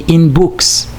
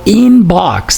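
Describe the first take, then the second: First: The second vowel is an oo sound. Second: The second vowel is not an oo sound.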